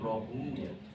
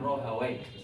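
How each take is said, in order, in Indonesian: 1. Nama itu berakhir dengan bunyi 'uya'. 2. Nama itu berakhir dengan bunyi 'wai'.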